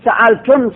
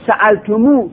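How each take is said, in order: First: سألتم said with a closed final mim, no vowel; short form. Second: سألتمو said ending in a long u; long form. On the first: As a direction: stop right on the mim of سألتم. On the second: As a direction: stretch out the u at the end of سألتمو. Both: Shown as a demonstration. Teacher setting two pronoun forms side by side. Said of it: "سألتمو لغت خودشه".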